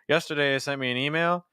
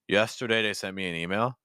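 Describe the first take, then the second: First: The voice is placed high, up in the head. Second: The voice is placed low, down in the chest. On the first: "where I started" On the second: "each time at a lower placement"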